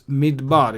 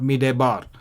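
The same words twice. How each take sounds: First: The word has two syllables with no extra vowel. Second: The word has an extra short vowel after D. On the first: The speaker calls it right. "We don't pronounce the schwa under the dalit here" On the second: The speaker calls it wrong. "It's not"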